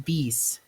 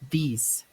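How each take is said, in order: Both takes have the same delivery.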